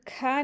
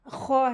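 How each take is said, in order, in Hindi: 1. यह अक्षर पतले स्वर के साथ हल्का बोला जाता है। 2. यह अक्षर गोल स्वर के साथ भारी बोला जाता है। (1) "खा नहीं है" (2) "खौ है"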